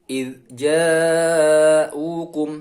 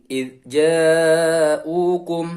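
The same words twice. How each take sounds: No difference in how they are said.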